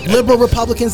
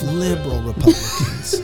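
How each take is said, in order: First: The phrase is said at normal, fuller volume. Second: The phrase is said very quietly and softly. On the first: "Did I say it right?" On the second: "What if I say it real soft?"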